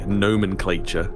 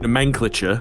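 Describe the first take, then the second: First: It is said the American way. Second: It is said in a non-American way. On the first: The speaker calls it wrong. "A lot of people say nomenclature, and by a lot of people I mean Americans" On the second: The speaker calls it right. "Pronounced correctly"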